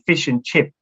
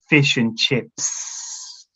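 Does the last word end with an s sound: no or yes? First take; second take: no; yes. First: The final s sound of chips is dropped. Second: The final s sound of chips is pronounced. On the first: The speaker calls it wrong. "it's very difficult for students to say the S at the end of chips. They would say fish and chip" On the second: The speaker calls it right. "help them with the S at the end of the word"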